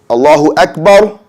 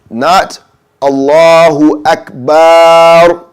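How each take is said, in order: First: The vowel in bar is short. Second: The vowel in bar is held long. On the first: God is the greatest. The speaker calls it right. "you don't hold the bar sound. It's a short bar" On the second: It says God is drums. The speaker calls it wrong. "That would be wrong. You're saying Allah is drums"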